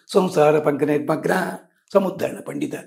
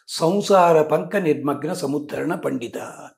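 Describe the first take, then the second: First: It has a pause breaking the phrase. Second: It is said as one unbroken phrase.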